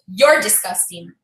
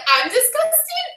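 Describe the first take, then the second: First: Low, slow, deliberate put-down; neighbour's cold insult. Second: High, drawn-out incredulous question; indignant disbelief. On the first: Neighbour throws the insult back at her, low and slow. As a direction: deliver it low and drawn out, quoting her. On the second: Tenant answers the neighbour's insult, high and incredulous. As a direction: throw it back, pitched way up. Retells her indignant comeback. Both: Retold or imitated.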